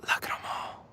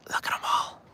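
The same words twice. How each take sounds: First: Whispering. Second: Hushed whisper. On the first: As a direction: whisper it even lower. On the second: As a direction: whisper it over the water. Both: Real, not acted. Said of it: "[name], why stop?".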